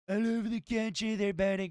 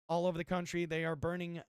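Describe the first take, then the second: First: It is read in a put-on impression voice. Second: It is read in the speaker's own voice.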